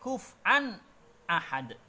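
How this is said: A brief break separates the two words. "karena ada saktah"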